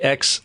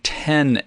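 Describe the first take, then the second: First: It is said as the letter ex. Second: It is said as the number ten. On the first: The speaker calls it wrong. "we're even saying it wrong" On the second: The speaker calls it right. "The iPhone ten S"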